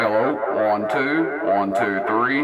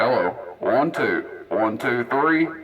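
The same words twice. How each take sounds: First: The voice has a heavy, long echo. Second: The voice has only a light echo. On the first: The speaker calls it wrong. "all the way up to thirty-two" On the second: The speaker calls it right. "echo setting number one"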